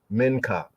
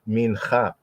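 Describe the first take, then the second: First: The middle consonant is a hard k sound. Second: The middle consonant is a throaty ch sound. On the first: The speaker calls it wrong. "Sometimes Yehudi will enunciate this as minka" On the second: The speaker calls it right. "but actually it's mincha, cha, cha"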